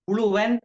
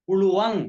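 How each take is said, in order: First: The word ends with a plain n sound. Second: The word ends with a nasal ng sound. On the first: The speaker calls it wrong. "அப்படி சொல்லக்கூடாது" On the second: The speaker calls it right. "இன்ன சத்தத்தை போட்டு உச்சரிக்கணும்"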